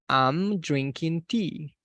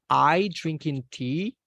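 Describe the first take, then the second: First: The lips close for an m after 'I'. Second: There is no m sound after 'I'. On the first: I am drinking tea. The speaker calls it right. "acuérdese de cerrar los labios" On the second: Me drinking tea, with no verb. The speaker calls it wrong. "estaría diciendo yo eh, tomando té"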